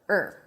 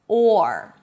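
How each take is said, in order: First: The vowel is reduced to a short weak er. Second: The full vowel is said with a clear R. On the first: "when the or is reduced, it turns into er" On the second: "you bring the tongue up for the R"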